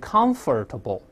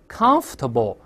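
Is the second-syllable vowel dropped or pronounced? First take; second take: pronounced; dropped. First: The 'or' vowel is pronounced, giving four syllables. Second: The 'or' vowel is dropped, giving three syllables. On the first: The speaker calls it wrong. "而不要读成comfortable" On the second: The speaker calls it right. "那个or 不发音"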